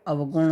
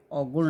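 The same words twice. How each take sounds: First: अवगुण said as "av-gun"; correct first syllable. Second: अवगुण said as "au-gun"; wrong first syllable. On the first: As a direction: sound the v in अवगुण. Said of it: "होता है". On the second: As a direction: merge the start of अवगुण into au. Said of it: "नहीं होता है". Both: Shown as a demonstration.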